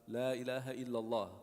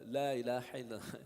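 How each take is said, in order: First: Plain light vowels with no throat sounds added. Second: Heavy throat sounds are added to the vowels. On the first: The speaker calls it right. "You don't need the throat like a heavy ayn or ha" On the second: The speaker calls it wrong. "He added the ha and the ayn"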